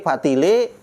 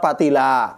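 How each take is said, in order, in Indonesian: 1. Kata itu berakhir dengan vokal e. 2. Kata itu berakhir dengan vokal a. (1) "Orang Betawi E"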